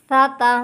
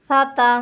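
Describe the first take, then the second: No difference in how they are said.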